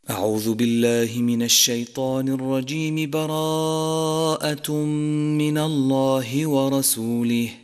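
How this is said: The first phrase runs straight into the next. "وصل الاستعاذة بأول السورة"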